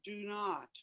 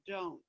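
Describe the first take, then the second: First: It is said as two separate full words. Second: It is said as one contracted syllable. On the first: The speaker calls it wrong. "it's not pronounced do not" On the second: The speaker calls it right. "It's pronounced don't"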